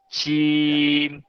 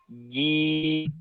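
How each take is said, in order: First: The consonant is released with an audible breath puff. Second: The consonant is released cleanly without a breath puff. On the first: The speaker calls it wrong. "Jim yang kurang tepat adalah dengan mengeluarkan hembusan" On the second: The speaker calls it right. "harusnya jim bersih"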